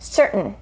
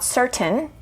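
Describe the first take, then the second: First: The T is stopped and the vowel is dropped. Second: The T is released with a vowel after it. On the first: "native speakers say certain" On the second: "not certain. That's okay"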